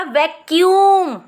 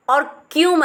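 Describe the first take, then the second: First: vacuum with यूम pressed louder; stress on यूम. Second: वैक और Qayyum said as separate parts; split apart. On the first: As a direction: lean hard on यूम. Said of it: "यूम पे ज़्यादा मैंने pressure डाल के बोला है". (यूम पर ज़ोर देकर) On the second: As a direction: pull the syllables apart. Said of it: "वैक और क्यूम अलग नज़र आ रहा है". (अलग अलग बोलो) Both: Shown as a demonstration.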